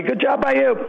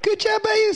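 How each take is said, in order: First: Silly higher sign-off; playful falsetto-ish thanks; mock high voice. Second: Far higher, louder squeaky echo; squeaky falsetto. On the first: Joking sign-off between hosts. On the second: Pretend. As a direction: top the joke in falsetto. Echoes the joke much higher.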